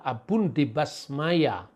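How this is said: The last word ends with an a vowel. This is the eastern reading. "kalau di timur itu adalah"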